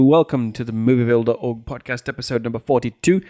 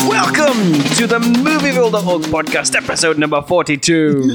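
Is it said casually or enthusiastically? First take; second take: casually; enthusiastically. First: It is said in a casual, low-energy way. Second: It is said in an enthusiastic, energetic way.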